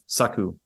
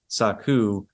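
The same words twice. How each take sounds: First: The word is said quickly and clipped. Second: The word is said slowly and drawn out. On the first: The speaker calls it right. "it's saku. It's much quicker" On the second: The speaker calls it wrong. "It's not it's not saku"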